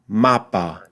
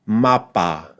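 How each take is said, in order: First: The final vowel is a weak 'uh' sound. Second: The final vowel is a full, clear 'a'. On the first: The speaker calls it wrong. "avoid saying mapa, mapa. Don't do that" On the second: The speaker calls it right. "we want to avoid that and say mapa"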